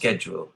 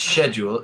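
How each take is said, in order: First: The word is said with an American pronunciation. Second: The word is said with a British pronunciation. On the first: "In America, it's schedule" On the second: "In English, it's schedule"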